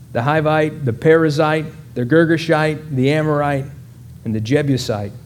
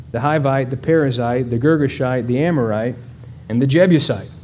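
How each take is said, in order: No difference in how they are said.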